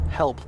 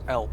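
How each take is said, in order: First: The word starts with an audible H sound. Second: The word starts without any H sound.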